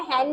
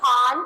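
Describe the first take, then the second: First: हैन said with a flat ai vowel as in hen; the mistaken reading हैन with ai; हैन pronounced with ai, the wrong way. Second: हान said with a long open aa; हान with a long aa, the right way; teacher models हान with an open aa; correct vowel. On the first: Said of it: "तो हम इसे हैन नहीं पढ़ेंगे". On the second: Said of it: "क्या पढ़ेंगे?". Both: Shown as a demonstration.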